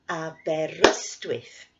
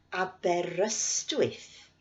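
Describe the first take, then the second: First: Aberystwyth with ryst pushed louder; Aberystwyth, beat on ryst; stress on ryst. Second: Said in the usual way. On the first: Shown as a demonstration. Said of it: "we'll clap on the stress". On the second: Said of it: "I'll say the place name".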